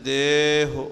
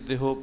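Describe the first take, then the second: First: The first vowel is long and the final vowel short. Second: The first vowel is short and the final vowel long. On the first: The speaker calls it right. "ਦੇਹ ਫਿਰ ਔਂਕੜ ਹੀ ਰਹੇਗਾ ਉਹ ਹੋੜਾ ਨਹੀਂ ਬਣ ਸਕਦਾ" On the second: The speaker calls it wrong. "ਦੱਦੇ ਦੀ ਲਾਵਾਂ ਨੂੰ ਛੋਟਾ ਪੜ੍ਹਾਂਗੇ ਅਤੇ ਹਾਹੇ ਦੇ ਔਂਕੜ ਨੂੰ ਲਮਕਾ ਦੇਵਾਂਗੇ, ਫਿਰ ਗਲਤੀ ਹੋਏਗੀ"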